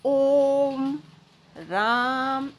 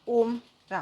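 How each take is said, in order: First: The vowels are stretched out long. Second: The vowels are said short and quick. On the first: The speaker calls it right. "आप कितना ओम और राम को खींच सकते हो" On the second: The speaker calls it wrong. "ऐसे नहीं बोलते"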